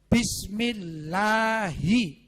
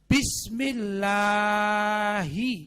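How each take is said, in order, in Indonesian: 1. Vokal setelah 'l' dibaca singkat. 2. Vokal setelah 'l' dibaca panjang. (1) "seharusnya orang membaca mat tobi'i itu dua harokat atau satu huruf" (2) "dia baca terlalu panjang"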